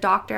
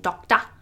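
First: The word is said without an Australian accent. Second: The word is said with an Australian accent. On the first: "Instead of doctor" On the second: "I was pronouncing it in Australian before"

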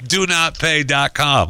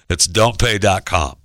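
First: It is said with 'do not' in full. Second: It is said with the contraction 'don't'. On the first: The speaker calls it right. "so I got it right" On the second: The speaker calls it wrong. "Why do I keep saying that?"

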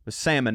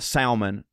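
First: The L sound is silent. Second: The L sound is pronounced. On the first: The speaker calls it right. "salmon, not salmon. Like, you don't pronounce the L" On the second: The speaker calls it wrong. "not salmon"

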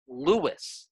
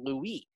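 First: The name is said the English way. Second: The name is said the French way. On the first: The speaker calls it wrong. "it's not Louis. ... it's an anglification of the pronunciation" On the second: The speaker calls it right. "It's named after Louis"

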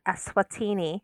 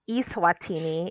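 First: The first syllable does not sound like email's 'e'. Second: The first syllable sounds like the 'e' in email. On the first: It names the real country. The speaker calls it right. "it is, in fact, Eswatini" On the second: It sounds like an online, virtual country. The speaker calls it wrong. "if you pronounce it like it's a virtual country"

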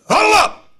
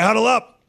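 First: It is said forcefully, from the chest. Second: It is said weakly, without authority.

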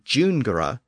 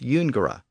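First: The word begins with a J sound. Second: The word begins with a Y sound. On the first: This is the later pronunciation. "which became jungere" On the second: This is the older Latin pronunciation. "the same thing happened with jungere"

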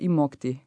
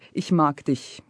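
First: It is said in a soft Bavarian accent. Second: It is said in a standard northern German accent. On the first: "in Bavaria, we would say" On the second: "somebody from the north or from center would say"

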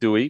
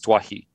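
First: The name is pronounced like "Dewey". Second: The name is pronounced like "Dwahi". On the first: This is how the name has been said until now. The speaker calls it wrong. "We've been saying Dewey" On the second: This is believed to be the correct pronunciation. The speaker calls it right. "but I think it's Dwahi"

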